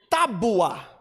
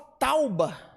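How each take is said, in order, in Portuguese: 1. O som do u vem depois do b. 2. O som do u vem antes do b. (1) "a gente fala de tábua" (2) "E ele fala tauba"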